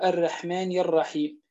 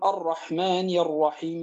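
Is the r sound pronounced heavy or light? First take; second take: light; heavy. First: The r sound is light and thin. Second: The r sound is heavy and emphatic. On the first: The speaker calls it wrong. "يأتي بها مرققة" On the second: The speaker calls it right. "في عوض تفخيم الراء المفتوحة والمضمومة"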